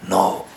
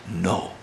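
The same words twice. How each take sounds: First: The word is said loudly. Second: The word is said softly.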